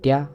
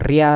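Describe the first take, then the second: First: The r is one light tap. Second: The r is a strong rolled trill. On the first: The speaker calls it right. "cukup satu getaran aja" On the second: The speaker calls it wrong. "Bukan ria"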